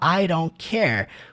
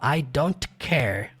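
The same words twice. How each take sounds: First: It is said in an American accent. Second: It is said in an African accent with strong T. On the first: "como um americano" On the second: "Eles forçam realmente o T, puxa mais um pouco para o britânico"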